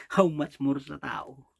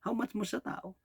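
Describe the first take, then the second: First: Slow, weighty "How much more sa tao?" with each word drawn out; slow emphatic question. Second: "How much more sa tao?" asked again higher and softer, almost to himself; softer higher repeat. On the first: Preacher presses his flock with a slow, emphatic question. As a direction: lean on "How much more" and let it land slowly. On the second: Preacher repeats his question to the congregation, higher and softer. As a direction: lift it up and pull back the volume. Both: Acted.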